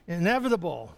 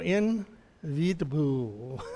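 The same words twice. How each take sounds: First: The word is said with its usual pronunciation. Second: The word is sounded out as it is spelled. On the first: The speaker calls it right. "Oh, there it is" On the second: The speaker calls it wrong. "I always was a phonetic pronouncer"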